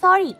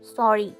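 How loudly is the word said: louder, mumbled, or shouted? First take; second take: shouted; mumbled. First: The word is shouted very loudly. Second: The word is mumbled quietly. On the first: "জোরে বলল" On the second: "মিনমিন করে কি বলো বুঝি না"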